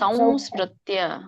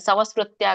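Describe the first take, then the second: First: The first syllable ends in a nasal sound. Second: A plain v sound follows the first vowel. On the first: The speaker calls it right. "ಮೂಗಿಂದ ಬರೋ ಹಾಗೆ ವ ಹೇಳಿ" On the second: The speaker calls it wrong. "ಸಾಮಾನ್ಯವಾಗಿ ವ ಹೇಳಿದ್ರೆ"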